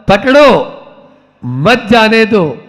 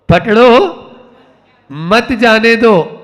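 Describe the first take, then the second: No difference in how they are said.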